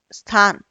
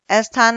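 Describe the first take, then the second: First: स्थान as "sthaan"; correct initial cluster. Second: स्थान as "es-thaan"; vowel before the s in स्थान; wrong extra vowel. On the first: Teacher corrects स्थान, said "sthaan". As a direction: start स्थान straight on s. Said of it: "होता है". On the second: Teacher shows wrong स्थान, said "esthaan". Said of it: "स्थान ना होकर". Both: Shown as a demonstration.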